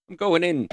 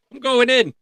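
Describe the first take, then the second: First: Said in the usual way. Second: Higher, louder declaration; pumped-up announcement, much higher; excited announcement. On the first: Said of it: "So, I'm going in". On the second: Real, not acted. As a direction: declare it like diving in.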